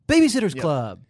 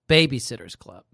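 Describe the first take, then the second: First: The phrase is said in a dramatic, theatrical way. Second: The phrase is said in a plain, ordinary way. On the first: The speaker calls it right. "She says it like an actor would" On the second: The speaker calls it wrong. "she doesn't say it like that"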